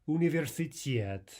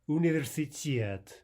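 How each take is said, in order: No difference in how they are said.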